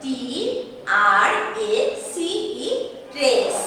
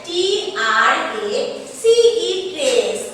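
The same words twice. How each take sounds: First: Letters read evenly, then trace; spelled out again. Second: Letters called out loud, then trace; spelled out loudly. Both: Shown as a demonstration. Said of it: "উচ্চারণটা কি হচ্ছে?".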